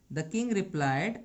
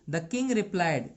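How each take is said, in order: Both takes have the same delivery.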